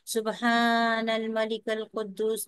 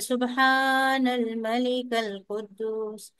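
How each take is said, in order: First: It is said in a louder voice. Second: It is said in the loudest voice.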